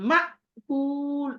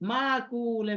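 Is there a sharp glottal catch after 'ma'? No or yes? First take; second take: yes; no. First: A sharp glottal catch cuts off 'ma' before 'kul'. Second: The word flows smoothly with no catch after 'ma'. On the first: The speaker calls it right. "মা ধাক্কা দিতে হবে" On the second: The speaker calls it wrong. "অনেকে মাকুল এভাবে বলে ফেলে"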